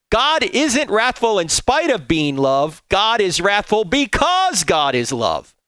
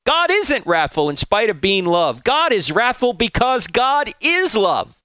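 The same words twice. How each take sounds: First: Slow, weighty reread of both lines. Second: First pass of the quote, building to the end; first reading. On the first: Preacher rereading Volf's quote so it sinks in, slow and weighty. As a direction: let every word land, slowly. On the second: Preacher reading Volf's quote to the congregation, first pass with emphasis. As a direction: read out with emphasis, slowing on the last line. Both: Shown as a demonstration. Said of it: "Let me read that again".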